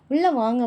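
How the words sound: It is said sweetly and gently.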